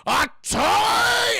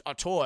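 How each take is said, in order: First: High, loud, drawn-out hammed-up yell; outraged shout. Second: Said in the usual way. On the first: Burgermeister told he stepped on a toy, enraged shout. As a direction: explode on TOY, holding it long. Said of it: "he's not happy". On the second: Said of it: "he says".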